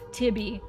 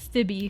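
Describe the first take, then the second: First: The name begins with a plain T sound. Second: The name begins with a TH sound. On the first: The speaker calls it right. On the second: The speaker calls it wrong.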